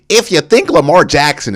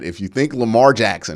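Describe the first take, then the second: First: It is said in a mocking put-on voice. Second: It is said in a natural speaking voice.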